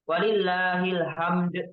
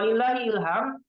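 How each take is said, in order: First: The final d is released with a clear bounce. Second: The final d is swallowed and barely heard. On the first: Listeners hear the intended word for praise. The speaker calls it right. "Bisa kita kol-kolakan supaya kita tahu" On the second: It sounds like a different word meaning inspiration. The speaker calls it wrong. "ilham ilham itu"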